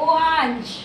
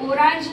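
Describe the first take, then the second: First: The middle consonant sounds like an h. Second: The middle consonant is a clear r sound. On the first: The speaker calls it right. "आर चा उच्चार ह सारखा केला जातो" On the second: The speaker calls it wrong. "ओरांश नाही म्हणायचं"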